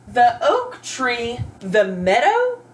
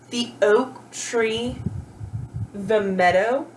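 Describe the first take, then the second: First: Slow nonsense reading. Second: Slow rereading. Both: Shown as a demonstration. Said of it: "does that make sense".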